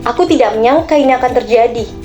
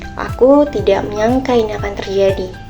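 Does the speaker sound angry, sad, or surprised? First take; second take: angry; sad. First: The sentence is said in an angry tone. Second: The sentence is said in a sad tone. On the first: "dengan nada yang marah" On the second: "dengan nada yang sedih"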